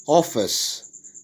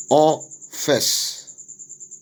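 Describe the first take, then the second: First: Said in the usual way. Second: "office" split as off, fess with a gap; syllable by syllable. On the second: Shown as a demonstration. Teacher dividing worksheet words, "office" broken into syllables. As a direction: say "office" drawn out in two separate syllables. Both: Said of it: "syllable division of the words".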